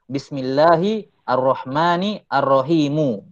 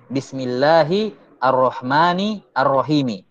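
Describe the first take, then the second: First: The last word ends in a u vowel. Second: The last word ends in an i vowel. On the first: The word is in the nominative case. "bisa dibaca rafa" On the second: The word is in the genitive case. "wajah yang pertama sesuai dengan qiraah"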